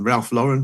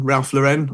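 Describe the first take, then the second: First: Lauren said "LOR-en"; stress on first syllable. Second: Lauren said "luh-REN"; stress on second syllable. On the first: Testing the brand name aloud, Lauren as "LOR-en". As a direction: try Ralph Lauren as "Ralph LOR-en". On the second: Testing the brand name aloud, Lauren as "luh-REN". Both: Shown as a demonstration. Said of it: "Is it Lauren or Lauren".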